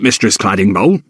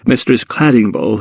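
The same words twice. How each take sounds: First: "Mistress Claddingbowl" in Jacob's rough servant voice, rising at the end. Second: Said in the usual way. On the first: Acted. Jacob addresses the cook.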